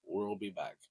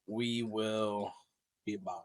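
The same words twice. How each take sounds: First: Low, soft movie-star impression; Arnold Schwarzenegger. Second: Arnold Schwarzenegger. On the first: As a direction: lightly echo an action hero's low catchphrase. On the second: Acted. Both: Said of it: "Is that my best Arnold impression?".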